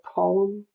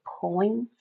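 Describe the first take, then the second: First: "poem" said in two syllables, "po-em"; "poem" as in standard English; standard pronunciation. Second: "poem" said as one syllable, "poin"; "poem" as the childhood "poin"; old pronunciation. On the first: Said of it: "instead of poem". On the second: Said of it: "I used to say poem". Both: Shown as a demonstration.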